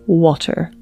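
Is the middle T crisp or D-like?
crisp. The middle T is crisp and clearly released.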